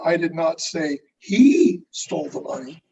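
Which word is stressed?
he. The stress falls on the word he. Someone else stole it. "who are you saying stole it?"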